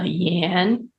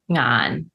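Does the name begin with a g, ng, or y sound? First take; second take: y; ng. First: The name begins with a y sound. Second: The name begins with an ng sound. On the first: This is the Mandarin form. "but in Mandarin, it's" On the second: This is the Cantonese form. "Cantonese, it's"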